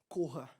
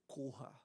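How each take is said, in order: First: It is said urgently and forcefully. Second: It is said slowly and calmly.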